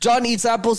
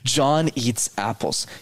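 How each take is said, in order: First: It is said too fast throughout. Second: It mixes quick and slow parts.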